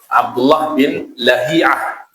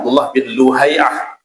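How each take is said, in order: First: The last name begins with La. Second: The last name begins with Lu.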